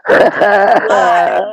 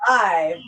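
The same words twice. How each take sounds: First: Loud excited shout of the word. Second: Said in the usual way. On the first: Real, not acted. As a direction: belt it out with a laugh. Shouts about filming live.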